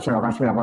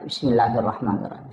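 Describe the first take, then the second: First: It is recited hastily and carelessly. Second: It is recited slowly and carefully.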